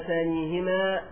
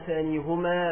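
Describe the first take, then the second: First: The vowel after the h is i. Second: The vowel after the h is u. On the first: The vowel matches the preceding y sound. "المناسب للياء الساكنة التي قبل الهاء" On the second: This is the original form of the pronoun. "بضم الهاء فهو على الأصل"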